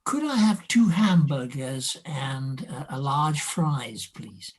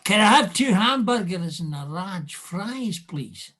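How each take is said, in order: First: Careful, slower RP English accent. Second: Broad Scots lilt, higher pitched; Edinburgh Scottish accent. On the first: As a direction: order politely in received pronunciation. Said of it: "show us what you sounded like". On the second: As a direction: order like an Edinburgh native talking to family. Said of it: "talking to your father in Edinburgh". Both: Shown as a demonstration.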